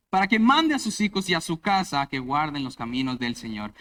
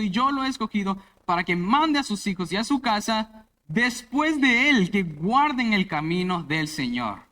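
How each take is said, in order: First: Said in the usual way. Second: Mande said louder and higher, the verse proclaimed; stress on mandar. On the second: Shown as a demonstration. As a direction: lean hard on the word mande as you proclaim the verse. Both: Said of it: "enfatizar en la palabra mandar".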